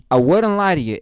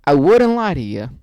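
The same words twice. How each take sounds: First: Louder emphatic repeat; repeat for the boys. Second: Loud insistence. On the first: Shown as a demonstration. Vlogger repeating the line for the boys back home, emphatic. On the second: Real, not acted. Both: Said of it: "One more time for the boys".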